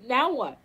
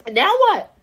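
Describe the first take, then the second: First: Said in the usual way. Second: Louder challenge. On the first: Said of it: "repeated question, quiet take". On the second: Real, not acted. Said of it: "repeated louder take".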